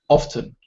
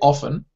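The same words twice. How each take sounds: First: The t sound is clearly pronounced. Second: The t sound is left out. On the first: "or it can be spoken" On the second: "the T can be silent"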